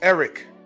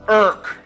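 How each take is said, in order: First: The name is said in its standard, careful form. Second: The name is said in a sloppy, clipped form. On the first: This is the name's proper form. The speaker calls it right. "My government name is Eric" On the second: This is how other people mangle the name. The speaker calls it wrong. "if you let them say it, it's irk"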